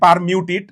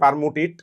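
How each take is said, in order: First: The second syllable has a 'y' glide: 'myoo'. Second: The second syllable has no glide: plain 'moo'. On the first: The speaker calls it right. "উচ্চারণটা basically পারমিউটিট" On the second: The speaker calls it wrong. "বাংলায় বলে ফেলছে পারমুটিট"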